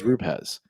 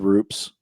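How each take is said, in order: First: The name is said as two syllables. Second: The name is said as one syllable. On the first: The speaker calls it right. "that's the correct way. ... It's like Ru and Pez" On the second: The speaker calls it wrong. "everybody comes on here and says Roops"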